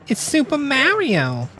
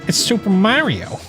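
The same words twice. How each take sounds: First: It is said in a put-on female cartoon voice. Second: It is said in a put-on male cartoon voice. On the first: "my Lois" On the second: "my Peter"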